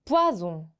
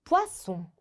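First: "poison" with a buzzing z in the middle; voiced z sound. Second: "poisson" with a sharp voiceless s; tense double-s sound. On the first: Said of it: "즈 발음으로 바뀌겠구나". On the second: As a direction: say "poisson" with a tense Korean ss in the middle. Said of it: "쌍시옷 이렇게 발음을 해 볼 거고요". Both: Shown as a demonstration.

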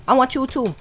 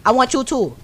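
No difference in how they are said.

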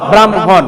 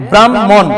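First: "ব্রাহ্মণ" with m first, then an audible h; h after m. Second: "ব্রাহ্মণ" with a long mm and no h; doubled m. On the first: Teacher repeats the grammarians' form for pupils, ব্রাহ্মণ as bram-hon. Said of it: "কি উচ্চারণ হবে?". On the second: Teacher shows the form common in the country, ব্রাহ্মণ as brammon. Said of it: "ম এর দ্বিত্ব উচ্চারণ করা হয়". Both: Shown as a demonstration.

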